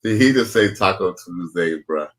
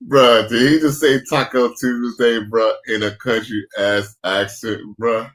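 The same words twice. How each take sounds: First: Said in the usual way. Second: Louder, slow, drawn-out disbelief. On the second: Real, not acted. Streamer to his chat, loud slow disbelief at the clip. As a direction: lean in, cracking up in disbelief. Incredulous at the clip's accent.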